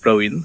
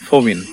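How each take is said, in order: First: The name begins with a p and an a vowel. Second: The name begins with an f and an o vowel. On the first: This is how Hindi speakers say it. "In Hindi it's Praveen" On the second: This is how Boro speakers say it. "it'll become Fo, Fovin"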